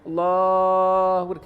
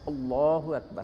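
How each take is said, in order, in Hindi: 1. लंबे स्वर को बहुत ज़्यादा खींचा जाता है। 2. लंबे स्वर को केवल थोड़ी देर रोका जाता है। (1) "खींच रहा ना, ये गलत है" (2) "उसको इतना खींचेंगे जितना कि दो उंगलियां बंद होती हैं बस"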